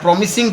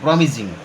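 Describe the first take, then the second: First: The middle consonant is a hissing s sound. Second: The middle consonant is a buzzing z sound. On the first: The speaker calls it wrong. "ଏଇଟା ପ୍ରମିସିଂ ପଢ଼ା ହେଉନି" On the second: The speaker calls it right. "ଏଇଟା ଜେଡ୍ ଭଳିଆ ଉଚ୍ଚାରଣ ହେଉଛି"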